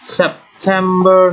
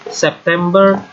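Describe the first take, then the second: First: It is said with an English pronunciation. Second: It is said with an Indonesian pronunciation. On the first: This is the English month name. "penulisannya sama, bedanya pengucapannya" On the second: This is the Indonesian month name. "penulisannya sama, bedanya pengucapannya"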